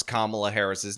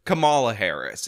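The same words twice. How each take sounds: First: Kamala said KAH-muh-luh; standard pronunciation. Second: Kamala said kuh-MAH-luh; disputed pronunciation. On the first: Shown as a demonstration. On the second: Retold or imitated. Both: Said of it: "somebody would dareth pronounce".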